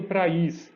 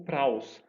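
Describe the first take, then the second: First: "praís" with two separate vowels, pra-ÍS; hiatus pronunciation. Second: "praus" slowly, as a single gliding syllable; "praus" said slowly as a diphthong; diphthong pronunciation. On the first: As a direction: split "praís" into two syllables with the stress on the í. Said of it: "num termo que aparece no Novo Testamento". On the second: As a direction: run "praus" together into one syllable. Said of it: "se eu não tivesse isso". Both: Shown as a demonstration.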